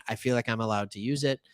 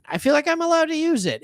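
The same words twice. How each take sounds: First: Said in the usual way. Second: Higher, fast, playful repeat of allowed; squeaky mock repeat. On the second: Host justifying his accent to viewers, higher and faster. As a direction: bounce up into a mock high voice on allowed. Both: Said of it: "The accent came out".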